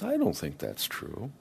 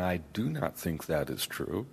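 First: "I don't think that's true" run together casually; relaxed contracted "I don't think that's true"; informal contracted. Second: "I do not think that is true" with each word spelled out; careful formal "I do not think that is true"; formal full forms. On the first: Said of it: "you're sounding more informal". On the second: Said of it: "you're sounding more formal". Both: Shown as a demonstration.

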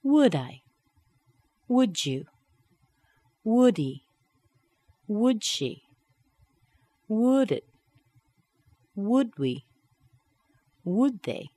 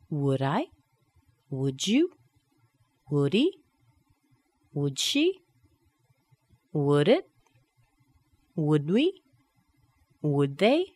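First: Each "would" tag starting high and falling; falling intonation. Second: Each "would" tag rising sharply on the pronoun; rising intonation. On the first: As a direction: hit "would" and drop the pronoun. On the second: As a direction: lift the last word of every "would" question. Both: Shown as a demonstration. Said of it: "and dropping down".

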